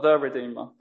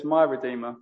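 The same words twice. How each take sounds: First: "the" picked out in contrast; "the" stressed over "Redeemer". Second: "my" picked out firmly; "my" stressed over "Redeemer". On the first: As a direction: lean on "the", said as a full word. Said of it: "he says, "My Redeemer," not". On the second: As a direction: lean on "my" to show it is personal. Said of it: "not "the Redeemer". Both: Shown as a demonstration.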